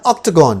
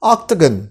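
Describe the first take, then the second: First: "octagon" with an open "-gawn" ending; full final vowel. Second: "Octagon" with a reduced last vowel, ending "-gun"; short final vowel. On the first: Teacher offering alternative variant to students, "octagon" ending in "-gawn". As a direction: say "octagon" as OK-tuh-GAWN, fuller last vowel. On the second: Teacher offering first variant to students, "Octagon" ending in "-gun". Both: Shown as a demonstration. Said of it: "ये दोनों pronunciation ठीक है".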